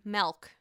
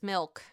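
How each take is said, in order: First: It is said with a New Jersey accent. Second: It is said in the speaker's plain accent.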